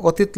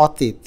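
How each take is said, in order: First: অতীত with rounded 'o' at the start; natural pronunciation. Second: অতীত with open 'aw' at the start; spelling pronunciation. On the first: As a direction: say অতীত as 'o-teet'. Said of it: "অতীত লেখা না". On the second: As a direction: say অতীত as 'aw-teet'. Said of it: "লেখা আছে অতীত". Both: Shown as a demonstration.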